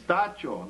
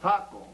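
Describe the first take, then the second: First: The middle consonant is a 'ch' sound. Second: The middle consonant is a 'k' sound. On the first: The speaker calls it right. "it's Tacho" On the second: The speaker calls it wrong. "not Taco"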